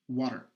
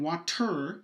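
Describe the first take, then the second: First: The T is a quick tongue flap. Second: The T is a full stop closure. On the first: The speaker calls it right. "We're saying water" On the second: The speaker calls it wrong. "We're not saying water. It's not a full stop"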